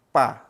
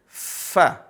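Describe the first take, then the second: First: The consonant is made with both lips closing. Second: The consonant is a hiss between teeth and lip. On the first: The speaker calls it wrong. "Kalau bibir ketemu bibir jadinya gimana?" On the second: The speaker calls it right. "Tapi giginya"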